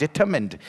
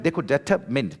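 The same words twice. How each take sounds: First: Said in the usual way. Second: Determined broken as "deter... mined"; slow determined down and separate its two parts; split into parts. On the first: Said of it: "देखो determined दो अलग अलग है". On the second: Shown as a demonstration. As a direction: pause inside determined before "mined". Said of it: "दो अलग अलग है".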